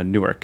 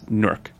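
First: The second syllable has a full, unreduced vowel. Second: The second syllable has a reduced schwa vowel. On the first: The speaker calls it wrong. "or Newark" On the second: The speaker calls it right. "It's Newark, which is a sort of schwa sound"

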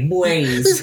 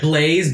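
First: It is said in a baby-like voice. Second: It is said in a normal adult voice.

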